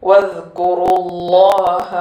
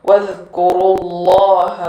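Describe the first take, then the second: No difference in how they are said.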